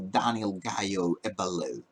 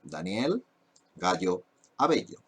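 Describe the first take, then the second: First: The name is said with English sounds and stress. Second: The name is said with Spanish sounds and stress. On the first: The speaker calls it wrong. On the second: The speaker calls it right. "That's the pronunciation"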